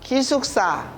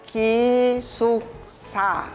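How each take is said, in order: First: The word is said quickly. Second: The word is said slowly.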